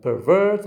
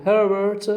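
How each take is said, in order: First: "pervert" as per-VERT, VERT raised; stress on second syllable. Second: "pervert" as PER-vert, PER raised; stress on first syllable. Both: Shown as a demonstration. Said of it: "using the stress in the".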